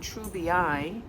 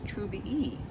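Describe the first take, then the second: First: The ending sounds like a long 'eye'. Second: The ending sounds like an 'ee'. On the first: The speaker calls it wrong. "it's not Trubii" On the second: The speaker calls it right. "the two I's at the end sound like an E instead of an I, a long I"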